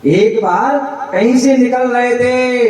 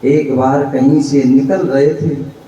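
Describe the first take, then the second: First: "एक बार कहीं से निकल रहे थे" said again, higher; raised retelling. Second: Said in the usual way. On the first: Shown as a demonstration. Preacher repeats the opening to the audience, pitched higher. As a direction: lift the line higher for emphasis. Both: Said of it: "repeated line".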